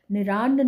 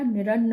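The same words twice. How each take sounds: First: निरान्न with a long आ in रा; wrong long vowel. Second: निरन्न with short अ and held double न; short र, doubled न in निरन्न; correct short vowel. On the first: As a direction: stretch the middle vowel of निरान्न. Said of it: "निरान्न नहीं होता". (निरान्न में 'रा' लंबा बोलें) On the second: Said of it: "निरन्न होता है". (निरन्न में 'र' छोटा बोलें) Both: Shown as a demonstration.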